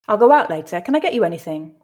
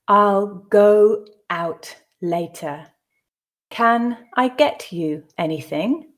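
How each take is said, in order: First: The sentences are read at a natural pace. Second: The sentences are read slowly. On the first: "read it twice more at a more natural pace" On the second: "the first time slowly for you to grasp the meaning"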